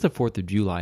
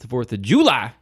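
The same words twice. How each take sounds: First: The phrase is said in a plain, flat way. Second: The phrase is said with lively, excited energy. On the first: It is just an ordinary date. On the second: It is a special occasion to celebrate.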